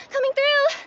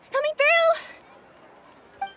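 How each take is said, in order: First: Calling out. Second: Drawn-out call. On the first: Repeated call. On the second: Repeated call, stretched. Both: Acted.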